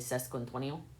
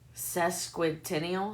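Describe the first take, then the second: First: The word is said quickly and rushed. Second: The word is said slowly and carefully. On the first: "when I would try to say it fast" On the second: "I have to say it slow"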